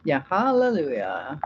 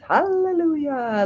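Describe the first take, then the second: First: Said in the usual way. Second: Hallelujah sung out high and slow; high, stretched joyful hallelujah; drawn-out hallelujah. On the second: Real, not acted. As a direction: belt it like a church praise. Cheering the commenter's remark.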